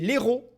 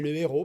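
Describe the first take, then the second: First: The article is elided onto the noun. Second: The article is kept separate before the noun. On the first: It suggests the drug heroin. "sans H aspiré avec une apostrophe" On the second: It means a hero. "une avec euh, un H aspiré"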